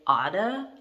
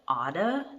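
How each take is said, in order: First: The words blend, with 'to' reduced to 'da'. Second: The words blend, with 'to' reduced to 'da'.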